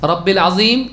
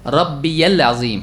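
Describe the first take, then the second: First: "رب العظیم" joined as rab-bil azeem; wrong RABBIL. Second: "ربی العظیم" slowly split as rab-bi-yal azeem; correct RABBIYAL. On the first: Teacher repeats the mistake to explain it, "رب العظیم" as rabbil. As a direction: leave out the "ya" in "رب العظیم". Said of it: "عظیم کا رب". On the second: Teacher corrects the misreading, slow "ربی العظیم" as rabbi-yal. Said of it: "نہیں". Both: Shown as a demonstration.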